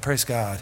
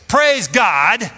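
First: The words are said softly, with little energy. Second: The words are said loudly, with much energy. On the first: The speaker is not really praising. The speaker calls it wrong. "that's really not praising him" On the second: The speaker is really praising. The speaker calls it right. "because you're going to say it loud"

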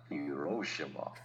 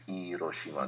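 First: It is said with an English-style pronunciation. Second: It is said with a Japanese pronunciation. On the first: The speaker calls it wrong. "not Hiroshima. Hiroshima was like, oh, I know you don't speak Japanese" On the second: The speaker calls it right. "and Hiroshima"

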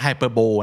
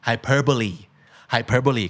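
First: The word ends without a final 'ee' syllable. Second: The word ends with a final 'ee' syllable. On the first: The speaker calls it wrong. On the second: The speaker calls it right.

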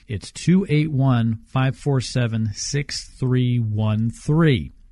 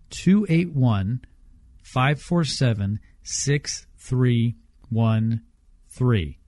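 First: The number is read at normal speed. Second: The number is read slowly.

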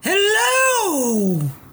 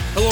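First: It is said imitating Mrs. Doubtfire's voice. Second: It is said in his natural voice.

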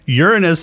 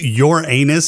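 First: The name sounds like 'urinous'. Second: The name sounds like 'your anus'. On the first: The speaker calls it wrong. "Uranus. Say it right" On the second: The speaker calls it right. "There you go"

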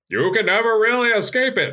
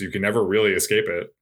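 First: It is said in a put-on Jebediah voice. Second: It is said in the speaker's normal voice.

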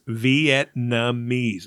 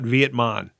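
First: The n sound comes before the m. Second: The m sound comes before the n. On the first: The speaker calls it right. "Vietnamese. It's not Vietmon" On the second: The speaker calls it wrong. "It's not Vietmon"

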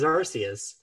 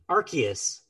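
First: The C is said as a soft S sound. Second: The C is said as a hard K sound. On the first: "I always read it as" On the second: "the video pronounced it with a hard C"

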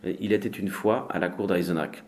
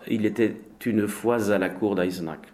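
First: The words are said without a liaison. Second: The words are joined with a liaison. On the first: The speaker calls it right. "No liaison" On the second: The speaker calls it wrong. "It's not"

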